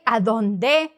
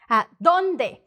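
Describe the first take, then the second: First: The syllable 'dón' is not raised. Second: The syllable 'dón' is said higher. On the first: The speaker calls it wrong. "We're not saying" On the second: The speaker calls it right. "that means you're going to pronounce that vowel higher"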